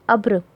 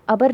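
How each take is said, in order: First: अब्र with b and r run together, no vowel between; half-sounded consonant. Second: अबर with a short vowel between b and r; wrong full-vowel reading. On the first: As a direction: say अब्र as one syllable, "abr". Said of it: "उसकी पूरी आवाज़ नहीं निकलती है". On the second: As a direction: say अबर in two syllables, "a-bar". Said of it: "अबर नहीं पढ़ेंगे". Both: Shown as a demonstration.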